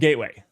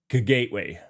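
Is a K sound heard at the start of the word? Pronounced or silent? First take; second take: silent; pronounced. First: The word begins without any K sound. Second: The word begins with a K sound. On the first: The speaker calls it right. "It's pronounced gateway. K is silent" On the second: The speaker calls it wrong. "otherwise you have to be like gateway, which is difficult to pronounce"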